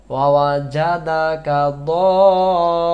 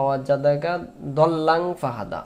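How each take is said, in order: First: Proper tajweed stretch; correct long madd. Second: দল্লাং said short with no stretch; common wrong reading. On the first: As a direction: stretch দল্লাং for four counts. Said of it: "চার আলিফ টান আছে". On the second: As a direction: clip দল্লাং quickly, the wrong way. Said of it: "এই শব্দটা আমরা ভুল করি". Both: Shown as a demonstration.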